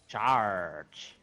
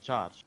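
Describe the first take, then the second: First: It is said in a pirate voice. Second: It is said in a normal voice.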